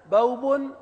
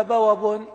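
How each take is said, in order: First: بوب said bawb, waw without a vowel; waw sakina. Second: بوب said bawab, waw carrying a fatha. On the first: Teacher shows students the sakin form, pronouncing carefully. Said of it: "لكن واو ساكنة". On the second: Teacher shows students the voweled form, pronouncing carefully. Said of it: "ولا مفتوحة". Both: Shown as a demonstration.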